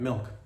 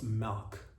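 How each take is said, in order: First: The word has a plain, standard pronunciation. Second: The word has a regional, local pronunciation. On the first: "I'm talking milk" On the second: "in some parts of the country, I believe it's pronounced milk"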